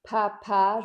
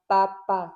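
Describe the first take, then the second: First: The p releases a puff of air. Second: The p is held back without a puff. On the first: The speaker calls it wrong. "au lieu de faire papa" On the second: The speaker calls it right. "je vais faire papa"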